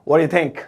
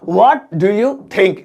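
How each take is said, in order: First: 'What do you' is blended quickly into one word. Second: Each word of 'what do you' is said separately.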